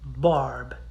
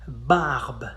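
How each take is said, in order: First: The vowel is an English-style 'ar' sound. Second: The vowel is a wide open 'ah' sound. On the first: The speaker calls it wrong. "not barb" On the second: The speaker calls it right. "In French, we say it ah"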